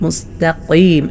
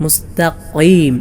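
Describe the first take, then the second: No difference in how they are said.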